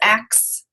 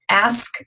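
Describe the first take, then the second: First: The word ends with the sounds k then s. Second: The word ends with the sounds s then k.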